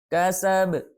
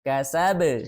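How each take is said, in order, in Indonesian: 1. Huruf b terakhir tidak terdengar lepasannya. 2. Huruf b terakhir memiliki lepasan memantul yang jelas. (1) "tidak terdengar pantulannya" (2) "pantulannya besar"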